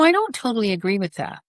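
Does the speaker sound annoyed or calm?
calm. The tone is calm and easygoing. It invites a conversation. The speaker calls it right. "you can have a conversation with that tone"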